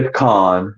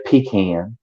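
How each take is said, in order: First: PECAN as puh-KAHN, stress on the second syllable; other people's pronunciation. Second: PECAN as PEE-can, rhyming with man; other people's pronunciation. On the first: Showing friends how others say it, pecan as puh-KAHN. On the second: Showing friends another regional way, pecan as pee-CAN. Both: Retold or imitated. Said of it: "some people say pecan".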